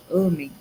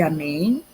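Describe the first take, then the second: First: "amem" stressed at the start, A-mem; stress on first syllable. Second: "amém" stressed at the end, a-MÉM; stress on last syllable. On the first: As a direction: hit the opening A of "amem". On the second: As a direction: hit the final syllable of "amém". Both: Shown as a demonstration. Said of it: "tirem o acento".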